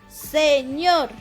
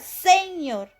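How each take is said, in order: First: The stress is on the last syllable. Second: The stress is on the first syllable. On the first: The speaker calls it right. "El acento recae en la última sílaba" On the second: The speaker calls it wrong. "Si el acento estuviera aquí, dijera"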